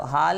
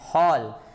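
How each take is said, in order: First: The vowel is an open, unrounded 'aa' sound. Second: The vowel is a rounded 'aw' sound. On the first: The speaker calls it wrong. "हाल नहीं बोलते" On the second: The speaker calls it right. "क्या बोलते हैं, हॉल"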